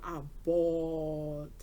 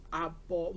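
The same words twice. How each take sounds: First: BAWLED stretched long and slow; emphatic drawn-out repeat. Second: Said in the usual way. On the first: Real, not acted.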